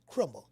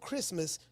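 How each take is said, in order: First: The word has a distorted Southern pronunciation. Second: The word has its usual standard pronunciation.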